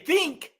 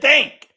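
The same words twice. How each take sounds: First: The vowel sounds like 'i', as in 'ink'. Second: The vowel sounds like 'a', as in 'thank'. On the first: It is how the word was meant to be said. The speaker calls it right. "if you wanted to say think, then I'll say I" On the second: It mimics how the other person said it. The speaker calls it wrong. "You said think"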